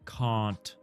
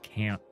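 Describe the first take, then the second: First: It is said with a British vowel. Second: It is said with an American vowel. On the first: "someone who learned Commonwealth English ... they say can't" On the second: "not can't"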